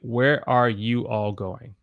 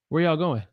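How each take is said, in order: First: Every word is said in full. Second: It is fast, dropping are and contracting y'all. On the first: "where I want to say" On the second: "if I say it faster, natural English for me would be"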